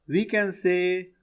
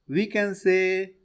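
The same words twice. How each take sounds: The two takes are said the same way.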